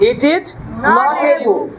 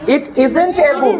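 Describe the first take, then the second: First: 'Is not' is said as two full words. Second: 'Is not' is joined into one short word.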